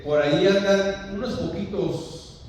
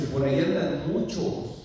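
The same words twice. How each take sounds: First: Higher, louder, drawn-out "unos poquitos"; mock misquote. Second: Firm correction landing on "muchos"; stress on MUCHOS. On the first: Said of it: "¿Qué dice, hermano? ¿Que andan unos poquitos?". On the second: Shown as a demonstration. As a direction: correct the misquote, weighting "muchos". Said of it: "Andan muchos, dijo".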